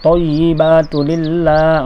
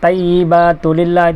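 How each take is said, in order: First: The first t sound is heavy and thick. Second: The first t sound is light and thin. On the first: The speaker calls it right. "mesti to" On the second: The speaker calls it wrong. "itu tak betul"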